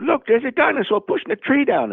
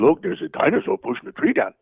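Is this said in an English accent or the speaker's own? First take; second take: English; own. First: It is said in an imitated English accent. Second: It is said in the speaker's own voice. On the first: Another performer said it first. "who was a little English guy, talk like this" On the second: It replaces the other performer's voice. "So I had to replace his voice"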